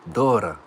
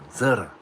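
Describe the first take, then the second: First: The word begins without a Z sound. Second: The word begins with a Z sound.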